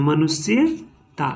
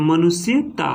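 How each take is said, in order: First: मनुष्यता said very slowly, मनुष्य then ता; teacher splitting मनुष्यता into root and suffix; slow split word. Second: Said in the usual way. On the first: Shown as a demonstration. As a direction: break मनुष्यता into its parts, slowly. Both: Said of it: "बिना उच्चारण के अनुसार".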